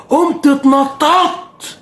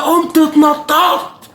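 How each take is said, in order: First: High, slow excited telling. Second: High, slow shouted telling; excited shout. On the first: Fan reliving his goal celebration, high and slow. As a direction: stretch it out with rising joy. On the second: Fan shouting as he relives the penalty win. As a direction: belt out the celebration. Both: Retold or imitated.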